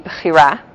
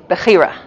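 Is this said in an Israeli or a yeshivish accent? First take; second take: Israeli; yeshivish. First: It is said with an Israeli Hebrew accent. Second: It is said with an American yeshivish accent. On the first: "the Israeli accent would be bechira" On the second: "The yeshivish accent would be bechira"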